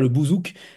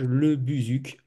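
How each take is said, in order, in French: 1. Les voyelles sont des sons 'oo' postérieurs, comme dans bouzouki. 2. Les voyelles sont des sons 'u' français antérieurs arrondis. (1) "on ne dit pas le bouzouk" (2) "Je pense que je le prononce bien"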